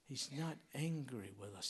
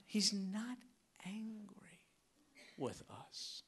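First: Said in the usual way. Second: Whispered, soft and close; whispered reassurance. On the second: Real, not acted. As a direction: lean in and whisper the comfort. Reassuring the congregation.

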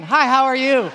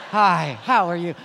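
First: Loud, high, overeager hi, how are you; eager greeting. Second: Said in the usual way. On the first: Retold or imitated. Escaped man greeting cafe strangers, loud and overeager. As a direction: burst out with the greeting, hungry for company. Starved for contact, greeting people.

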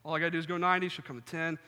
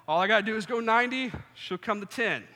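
First: Said in the usual way. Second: Fast, higher, louder self-pep talk. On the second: Retold or imitated. Psyching himself up in the mirror, fast and excited. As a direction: pump yourself up quickly.

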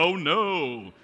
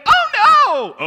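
First: Loud cry at normal pitch; mock manly cry. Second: Very high, loud cry of alarm; shrieking like panicked disciples; mock scream. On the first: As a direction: call it out like alarmed big men. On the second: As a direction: scream it out in hammed-up terror. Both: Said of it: "They scream and they say".

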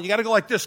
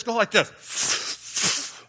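First: Said in the usual way. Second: Very slow breathy drag on go like this; inhaling demo. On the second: Shown as a demonstration. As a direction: kid showing how to inhale a cigarette.

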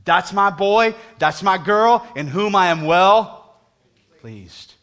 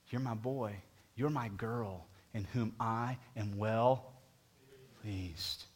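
First: Booming voice of God. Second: Soft, slow, intimate voice of God; tender blessing. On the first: Retold or imitated. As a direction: proclaim God's blessing over the church. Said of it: "guess what God says about you". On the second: Acted. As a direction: whisper the blessing to each listener. Soft echo of God's blessing.

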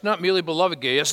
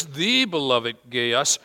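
First: Said in the usual way. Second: Slow, with "the" drawn out and lifted; stress on THE. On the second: Shown as a demonstration. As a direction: linger on "the" before "beloved Gaius".

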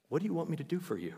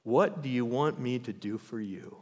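First: Higher, softer and quick, like a gentle marvel; tender repeat. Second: Said in the usual way. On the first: Retold or imitated. Preacher savours Jesus' question, higher, softer, quick. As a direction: repeat it softly in wonder. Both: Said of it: "What an amazing question".

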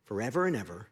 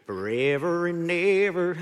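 First: Said in the usual way. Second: Drawn-out, slow country twang; country accent. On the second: Shown as a demonstration. Preacher hears a country song in the verse, country accent. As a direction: put on your best country-song accent. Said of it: "it's my best country accent for you".

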